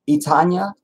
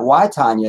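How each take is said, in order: First: The name does not begin with an 'eye' sound. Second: The name begins with an 'eye' sound. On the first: "Am I saying it right?" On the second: "it's not Y Tanya"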